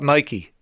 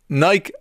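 First: The word is said not rhyming with bike. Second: The word is said rhyming with bike. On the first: The speaker calls it wrong. "Not Nike" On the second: The speaker calls it right. "as in bike, Mike like"

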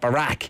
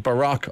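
First: The name sounds like the Irish word brack. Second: The name is pronounced the American way. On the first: The speaker calls it wrong. "not Barack. Because we're Irish, ... like the Barack cake" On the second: The speaker calls it right. "His name is Barack Obama"

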